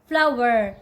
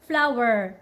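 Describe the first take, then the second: No difference in how they are said.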